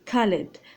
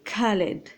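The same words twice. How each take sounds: First: It begins without a harsh throaty kh sound. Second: It begins with a harsh throaty kh sound. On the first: This is how foreigners say it. "لكن الأجانب غينطقوه خالد" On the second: This is how Arabic speakers say it. "حنا غنطقوه خالد"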